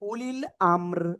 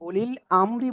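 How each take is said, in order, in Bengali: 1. বাক্যাংশটি ব্যঞ্জনবর্ণ 'r' দিয়ে শেষ হয়। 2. বাক্যাংশটি একটি যোগ করা 'i' স্বরধ্বনি দিয়ে শেষ হয়।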